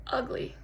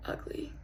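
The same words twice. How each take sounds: First: "ugly" set apart after a pause; weighted, voiced "ugly"; emphatic "ugly". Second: "ugly" barely whispered; small, ashamed "ugly"; hushed confession. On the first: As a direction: land on "ugly" firmly but quietly. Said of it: "I don't mean just looks". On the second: Acted. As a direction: let "ugly" slip out very softly. First, confessional take of ugly.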